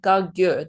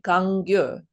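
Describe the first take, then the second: First: There is no n sound before the g. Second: There is an n sound before the g. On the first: The speaker calls it wrong. "they don't say Kagyur" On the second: The speaker calls it right. "they say Kangyur"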